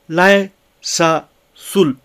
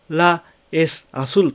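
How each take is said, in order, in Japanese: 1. 'la'と'es'の母音は一つに融合します。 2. 'la'と'es'の母音は別々のままです。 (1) "というふうに発音されている" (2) "La es azul と発音しないで"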